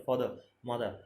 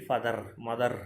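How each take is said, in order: First: ফাদার, মাদার ending on open vowels, no R; silent R. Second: ফাদার, মাদার with hard, audible final R; R sounded. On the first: Teacher gives students silent-R examples, silent R. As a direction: drop the final R in ফাদার, মাদার. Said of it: "আর এর উচ্চারণটা silent রাখি". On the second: Teacher imitates how many people wrongly say it, R sounded. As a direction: roll the R ending ফাদার, মাদার. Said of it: "ওরকম র এর উচ্চারণটা কিন্তু হবে না". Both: Shown as a demonstration.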